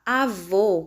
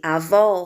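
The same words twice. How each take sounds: First: "avô" with a closed, rounded "ô" at the end; closed final vowel. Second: "avó" with an open "ó" at the end; open final vowel. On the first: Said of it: "avô com o som fechado". ("avô" com o som do "ô" fechado) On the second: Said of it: "com o som aberto". ("avó" com o som do "ó" aberto) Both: Shown as a demonstration.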